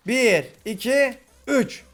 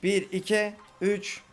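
First: Slow count rising to a shout on üç; slow suspense count. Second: Said in the usual way. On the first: Real, not acted. Counting down to the last mob, slow building count. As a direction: draw out the count, then burst.

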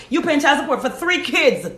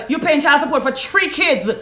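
First: Three with a clear th sound; three said with a proper th; standard three. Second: Three said like tree, no th sound; three spoken as tree in a Jamaican way. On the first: Shown as a demonstration. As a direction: correct three to a full th at the start. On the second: Real, not acted. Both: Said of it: "I said three 'cause I'm Jamaican".

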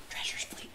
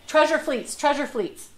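First: Hushed, voiceless aside; whispered hint. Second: Louder, higher repeated prompt; voiced emphatic hint. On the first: Acted. Lecturer slipping a hint into the nobleman's pitch, whispered. Prompts a hint amid the quote. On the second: Lecturer repeating her hint mid-story, loud and emphatic. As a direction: say it out loud, punched.

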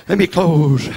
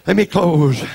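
The two takes are said the same way.

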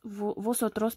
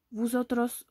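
First: Corrected "vosotros", o not ou, after a false start; self-corrected pronunciation. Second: "Vosotros" slipped into "vousotros"; mispronounced slip. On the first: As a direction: restart "vosotros" with a clear o. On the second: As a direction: say "Vosotros" with ou in the first syllable. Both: Real, not acted.

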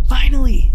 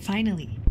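First: Loud, higher triumphant yell; triumphant shout. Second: Said in the usual way. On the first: Real, not acted. Triumphant shout at the camera fix.

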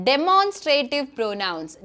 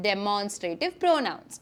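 First: Teacher's slow model word; slow announcement. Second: Softer and lower, drawn out slowly; soft, slow model echo; quiet repeat. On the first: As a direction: spell out each syllable slowly. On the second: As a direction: repeat it gently for the class to copy. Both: Shown as a demonstration. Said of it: "നമ്മൾ പഠിക്കാൻ പോകുന്ന ടോപ്പിക്കിൻ്റെ പേരാണ്".

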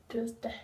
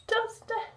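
First: Said in the usual way. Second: Word squeaked up high. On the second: Acted. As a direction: pitch it way up. Repeats word much higher.

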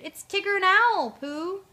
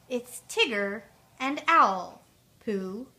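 First: High, loud holler; hooting shout to those inside; voice from outside. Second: Slow, spelled-out recollection; drawn-out, loud first words, as if working it out; slow repeating. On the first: A narrator's reading. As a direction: call through a closed door. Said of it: "From outside, a voice answered". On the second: Retold or imitated. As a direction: piece the words together deliberately. Pooh slowly repeats what Owl said.

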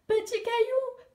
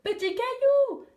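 First: First call, much higher and slow. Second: Second call, even higher, louder and slow. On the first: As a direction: call his name across the rocks, high. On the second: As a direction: call his name again with more force. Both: Acted. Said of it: "cria-t-elle".

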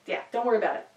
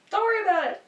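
First: Said in the usual way. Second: The same words again, pitched much higher and teasing; higher playful repeat. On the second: Real, not acted. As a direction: bounce it back up lightly. Reassuring the listeners twice.

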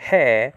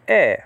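First: "he" with an h sound, like in hen; wrong rough breathing. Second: "e" with no h, a bare vowel like in "in"; soft breathing. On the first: Teacher showing the wrong reading, "he" with an h. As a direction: breathe an h before the vowel: "he". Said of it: "but it's e". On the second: Teacher giving the right reading, "e" without h. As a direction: start "e" straight on the vowel, no breath before it. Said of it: "So it's not he". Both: Shown as a demonstration.

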